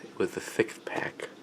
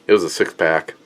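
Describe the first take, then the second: First: Whispered, lisping "six pack" as "thick pack"; mock slurred lisp. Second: Said in the usual way. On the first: Shown as a demonstration. Beer reviewer jokes to viewers about the pack, whispered lisping slur. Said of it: "It wa-, it was a thick".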